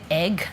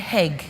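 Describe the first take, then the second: First: The word begins without an H sound. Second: The word begins with an added H sound. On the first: The speaker calls it right. "if they want to say egg" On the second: The speaker calls it wrong. "they say heg"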